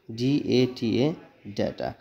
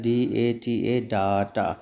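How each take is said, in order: First: डेटा said "day-ta", slowly; a teacher models the correct form; correct pronunciation. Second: डाटा with a long open "daa-ta"; a teacher shows the common mistake; wrong pronunciation. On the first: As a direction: say डेटा as "day-ta", slow and clear. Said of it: "तब जाके हमारा pronunciation सही होगा". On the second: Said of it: "ये गलत pronunciation में आएगा". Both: Shown as a demonstration.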